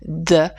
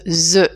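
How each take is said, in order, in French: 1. Il commence par un son de type d. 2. Il commence par un son de type z. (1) "vous allez faire un D" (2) "mais surtout pas ce the"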